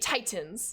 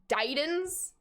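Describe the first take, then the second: First: The middle t is a crisp, emphasized t. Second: The middle t sounds like a soft d. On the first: The speaker calls it right. "But I say Titans" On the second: The speaker calls it wrong. "pronounce them like D's, like Titans"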